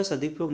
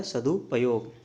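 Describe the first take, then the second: First: सदुपयोग squeezed to "sadip-yog"; incorrect form. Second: सदुपयोग with every syllable sounded; corrected form. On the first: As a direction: say सदुपयोग with the middle vowel swallowed. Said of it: "अच्छा सदुपयोग नहीं होता". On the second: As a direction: say सदुपयोग as "sadu-payog". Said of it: "ये होता है सदुपयोग". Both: Shown as a demonstration.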